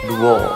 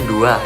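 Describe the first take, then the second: First: The word ends with an 'oh' vowel. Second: The word ends with an 'ah' vowel. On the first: This is the Jambi Malay form. "Kalau bahasa Jambinya itu diganti dengan O" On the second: This is the standard Indonesian form. "kalau bahasa Indonesianya kan dua, yang mana ujungnya A"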